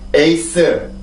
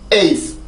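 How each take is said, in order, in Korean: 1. 음절이 고르고 따로따로 끊어지는 한국식 발음입니다. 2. 첫 모음은 강하고, 두 번째 모음은 약해집니다. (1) "우리나라 말부터 읽어볼까요?" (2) "영어입니다"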